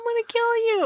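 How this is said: It is said in a light, playful tone. The threat is a joke.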